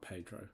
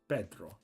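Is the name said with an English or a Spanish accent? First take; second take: English; Spanish. First: The name is said with an English accent. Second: The name is said with a Spanish accent. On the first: The speaker calls it wrong. "I know it's not Pedro" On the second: The speaker calls it right. "it's Pedro"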